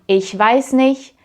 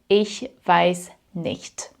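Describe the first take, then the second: First: Nicht ends without a t sound. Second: Nicht ends with a clear t sound. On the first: "you don't pronounce the T" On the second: "instead of"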